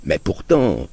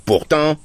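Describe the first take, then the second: First: A meek mild but-still; father meekly attempting to object; sheepish objection. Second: High, loud cutting retort. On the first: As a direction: venture a timid objection. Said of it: "d'une voix coupable". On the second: Acted. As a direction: slice the word off sharply. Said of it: "dit l'oncle d'un ton tranchant".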